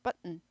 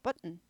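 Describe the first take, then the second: Both takes have the same delivery.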